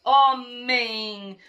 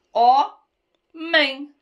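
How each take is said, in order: First: "Homem" joined, both syllables drawn out; sílabas juntadas. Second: "Homem" split as ho, mem, louder; sílaba por sílaba. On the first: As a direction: blend "Homem" into one long word. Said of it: "eu juntei e formei uma palavra". ("Homem" inteira, alongada, sem pausa) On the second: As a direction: clear pause inside "Homem". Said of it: "Duas sílabas". ("Homem" silabado, em duas batidas) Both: Shown as a demonstration.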